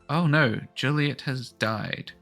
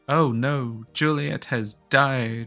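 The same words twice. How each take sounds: First: It is said quietly. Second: It is said loudly.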